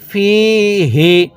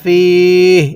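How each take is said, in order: First: The word ends with a short final vowel. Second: The word ends on the consonant, vowel dropped. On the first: The reading continues without a stop. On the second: The reader stops here at a pause mark.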